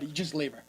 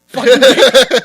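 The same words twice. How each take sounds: First: Dropped low and quiet; hushed, low verdict; matter-of-fact advice. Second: Loud, punchy outburst; sudden loud insistence; emphatic advice. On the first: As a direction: toss it off softly and low. Aside before loud repeat. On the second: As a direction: shout it as blunt advice. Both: Real, not acted.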